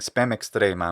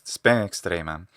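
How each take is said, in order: First: The final M of spem is a full consonant. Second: The final M of spem is weakened, not fully closed. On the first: The speaker calls it wrong. "He's saying spam extremam" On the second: The speaker calls it right. "instead of spam, spam extremam"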